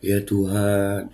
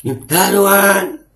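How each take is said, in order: First: A slow, hushed "Ya Tuhan"; quiet, stretched-out "Ya Tuhan" as a humble prayer; soft humble prayer. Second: A slow, high, loud "Ya Tuhan"; shouted prayer. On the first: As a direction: draw out "Ya Tuhan" gently, like a sincere plea. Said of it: "gimmicknya dapat berdoa". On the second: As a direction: bellow "Ya Tuhan" at the sky like a command. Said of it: "duar langsung ke sambar petir". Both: Shown as a demonstration.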